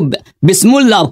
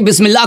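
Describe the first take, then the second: First: The second syllable has a 'u' vowel. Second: The second syllable has an 'i' vowel. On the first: The speaker calls it wrong. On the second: The speaker calls it right.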